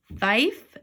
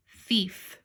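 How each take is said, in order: First: THIEF mispronounced "thife", rhyming with life; long I. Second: THIEF said "theef", with an "ee" vowel; long E. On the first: Teacher testing if it is a word, THIEF said as "thife". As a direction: say THIEF with an "eye" vowel, questioning rise. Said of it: "do it with a long I sound". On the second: Teacher trying the long E first, THIEF said as "theef". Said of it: "I wanna try the long E sound". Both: Shown as a demonstration.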